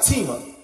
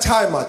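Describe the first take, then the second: First: The name is pronounced with French sounds. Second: The name is pronounced with English sounds. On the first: The speaker calls it right. "pronounce it the French way" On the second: The speaker calls it wrong. "Not Tima"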